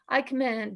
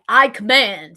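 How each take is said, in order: First: It is said weakly, without conviction. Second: It is said firmly, with full conviction. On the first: The speaker does not really mean it. The speaker calls it wrong. "Don't say I command and just be like" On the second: The speaker truly means it. The speaker calls it right. "Like you mean it"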